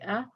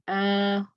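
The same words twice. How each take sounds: First: The short vowel is kept brief. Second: The short vowel is stretched out long. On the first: The speaker calls it right. "I have to say ah, o, e, short" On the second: The speaker calls it wrong. "I cannot make them long because that's incorrect. I can't say ah"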